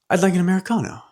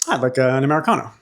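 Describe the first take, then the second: First: It sounds like a sudden discovery. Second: It sounds bored and mundane.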